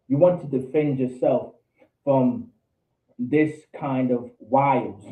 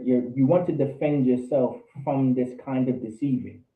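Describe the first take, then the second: First: Slow down hard on "this kind of wiles", each word weighted; slow emphatic restatement. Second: Said in the usual way. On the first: Shown as a demonstration. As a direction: lean on "this" and let "wiles" land slowly.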